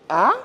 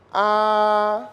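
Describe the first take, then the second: First: The pitch rises from low to high. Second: The pitch stays high and level. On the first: "c'est un ton montant" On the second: "C'est un ton qui est plat"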